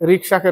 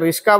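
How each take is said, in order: First: The k sound comes before the s sound. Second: The s sound comes before the k sound.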